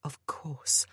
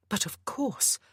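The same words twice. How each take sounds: First: Hushed realization, breathed out; whispered thought. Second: Said in the usual way. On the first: A narrator's reading. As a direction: whisper it as it dawns. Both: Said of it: "a thought struck her".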